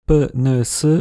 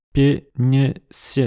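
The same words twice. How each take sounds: First: Said in the usual way. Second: "p, n, s" each with a y-glide; palatalized consonants. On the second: Shown as a demonstration. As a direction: soften "p, n, s" with tongue raised to the palate. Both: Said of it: "palatalisé, ça donne".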